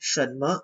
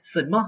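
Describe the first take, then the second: First: เฉินเมอ with a proper hushing ch; standard Mandarin pronunciation. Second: Fujian-accented เซินเม่อ, ch softened to s; southern Fujian Mandarin เซินเม่อ, no curled tongue; Xiamen accent. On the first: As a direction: model เฉินเมอ by the textbook, ch not flattened to s. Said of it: "ต้องออกเฉินเมอแบบนี้เลย". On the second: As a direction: say เซินเม่อ like a Xiamen speaker, with plain s. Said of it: "อย่างคนเซี่ยเหมินเนี่ย เวลาพูดเนี่ย". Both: Shown as a demonstration.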